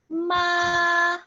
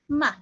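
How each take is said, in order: First: The pitch stays level and flat throughout. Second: The syllable is very light and quick. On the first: "first tone, ma. It's a flat tone" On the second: "it sounds like a very light and very quick word"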